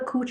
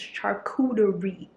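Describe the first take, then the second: First: The word is said in a clipped form. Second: The word is said with every syllable. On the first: The speaker calls it wrong. "I usually say coochie" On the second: The speaker calls it right. "it's charcuterie. Like I learned how to pronounce it"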